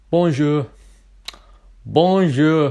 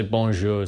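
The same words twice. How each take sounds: First: "bonjour" higher, louder, cheerful; happy. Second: Said in the usual way. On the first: Shown as a demonstration. Teaching viewers how to greet in France, happy and bright. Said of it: "you're supposed to sound happy". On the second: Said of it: "don't say".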